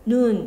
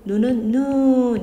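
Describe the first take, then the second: First: The vowel is kept short. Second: The vowel is held long. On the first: It means the eye. "이렇게 짧게 발음하고" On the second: It means snow falling from the sky. "이렇게 길게 발음하고"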